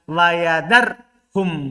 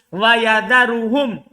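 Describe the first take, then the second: First: No vowel comes before the final hum. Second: A short u vowel comes before the final hum. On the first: The verb is joined to the preceding conditional answer. "Kalau antum baca sukun" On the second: The clause starts a new sentence. "Kalau dibaca roba"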